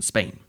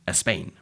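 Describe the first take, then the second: First: No extra vowel sound comes before the word. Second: An extra vowel sound comes before the word. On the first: The speaker calls it right. "instead of listeners and Spain" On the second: The speaker calls it wrong. "a Spanish speaker might have said a listeners and a Spain"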